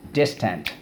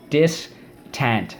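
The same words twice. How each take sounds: First: Said in the usual way. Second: Distant said as a clear model, DIS stressed, falling end; teacher says Distant for the class; model word. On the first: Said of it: "there we go again". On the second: Shown as a demonstration. Teacher models the word for students to repeat, clearly. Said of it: "Let's go".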